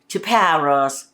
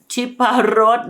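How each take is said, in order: First: The word ends with an audible s sound. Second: The word ends without an s sound. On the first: The speaker calls it wrong. "you don't say Chiparos. ... this is what my Americans at home say" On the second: The speaker calls it right. "S when it's at the end of the word is silent"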